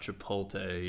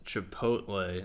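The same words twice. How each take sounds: First: The L sound comes before the T sound. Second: The T sound comes before the L sound. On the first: The speaker calls it wrong. "not Chipotle. You're reversing the T and the L there" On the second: The speaker calls it right. "it's Chipotle"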